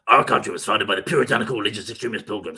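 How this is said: It is said in an exaggerated put-on character voice.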